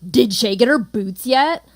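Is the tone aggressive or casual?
aggressive. It is said in an aggressive tone.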